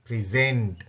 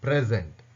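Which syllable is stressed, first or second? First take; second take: second; first. First: The stress is on the second syllable. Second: The stress is on the first syllable. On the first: It is used as a verb. "Send என்றதை சவுண்டை கூட்டி சொல்கிறேன்" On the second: It is used as a noun meaning gift. "First சிலபிள்ல தான் அங்கே நாங்கள் stress அழுத்தம் கொடுத்து"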